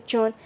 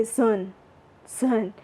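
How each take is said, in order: First: JUNE with an English J sound; English pronunciation. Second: ZUN for June, starting on Z; Burmese pronunciation. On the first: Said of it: "in English June". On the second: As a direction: say ZUN with Z replacing the J. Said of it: "but we say Zun". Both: Shown as a demonstration.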